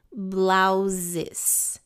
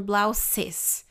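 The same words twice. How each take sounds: First: Blouses with a buzzing Z, blau-zes; Z sound in blouses. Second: Blouses with a sharp S, blau-ses; hissing S in blouses. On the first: Teacher contrasts Blouses, wrong S versus right Z. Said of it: "É com sonzinho de Z". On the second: Teacher mimics the common wrong S in blouses. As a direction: say blouses with a hissed S. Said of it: "Não é com som de S". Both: Shown as a demonstration.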